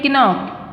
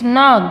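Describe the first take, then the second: First: The K at the start is pronounced. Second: The K at the start is not pronounced. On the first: The speaker calls it wrong. "we don't say knock" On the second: The speaker calls it right. "it's knock because K is silent here"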